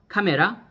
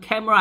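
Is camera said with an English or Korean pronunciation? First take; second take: Korean; English. First: The word is said with Korean pronunciation. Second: The word is said with English pronunciation. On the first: It is the Korean loanword. "카메라는 한국말이고, 외래어지만 한국말이고" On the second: It is the English word. "영어로는 camera 아닙니까"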